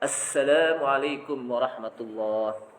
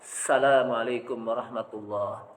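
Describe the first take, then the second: First: The opening 'al' article sound is clearly said. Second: The opening 'al' article sound is left out. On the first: The speaker calls it right. "Padahal yang betul apa?" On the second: The speaker calls it wrong. "Yang salah gimana Ustaz? ... Kurang apa? Alif lam"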